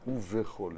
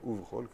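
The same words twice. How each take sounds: First: A short vowel is heard between v and ch. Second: No vowel is heard between v and ch. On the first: The speaker calls it wrong. "לא ובכל" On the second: The speaker calls it right. "אלא ובכל, כי השווה הוא שווה נח"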